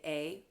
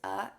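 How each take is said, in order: First: The word is said like the letter's name. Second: The word is not said like the letter's name. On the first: The speaker calls it wrong. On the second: The speaker calls it right.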